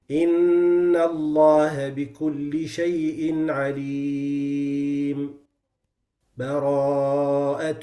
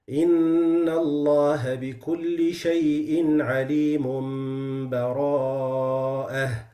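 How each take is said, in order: First: There is a brief pause without a breath. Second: The two words are joined with no pause. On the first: "the sect is short and quick and you don't take a breath" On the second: "The first one is the complete wasl"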